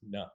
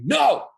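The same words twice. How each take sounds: First: It is said softly but firmly, without yelling. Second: It is yelled harshly, like scolding a puppy.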